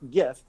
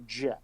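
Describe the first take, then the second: First: It starts with a hard G sound. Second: It starts with a soft J-like sound. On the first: The G stands for graphic. The speaker calls it right. "the G is graphic, which has a G sound, hence GIF" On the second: This is the creators' version. The speaker calls it wrong. "the creators of the GIF call it a GIF"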